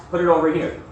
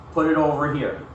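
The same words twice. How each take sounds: The two takes are said the same way.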